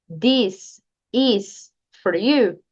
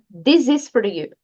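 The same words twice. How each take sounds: First: The words this and is are said separately. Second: The s of this runs into is. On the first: The speaker calls it wrong. "fica esquisito. Não fica natural" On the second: The speaker calls it right. "Junte o S do this com is"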